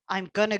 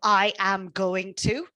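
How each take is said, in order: First: The words are contracted and reduced together. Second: Every word is said fully and separately.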